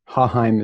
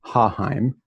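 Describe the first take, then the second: First: Haheim with the weight on HA, the second syllable lighter; stress on first part. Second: Haheim, HA stressed, the end lifting slightly; stress on first part. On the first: Introducing his last name to the class, stress on the first part. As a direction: say Haheim leaning on HA. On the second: Modelling his last name for students, first syllable stressed. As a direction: repeat Haheim slowly with weight on HA. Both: Shown as a demonstration. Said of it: "with the emphasis on the first part".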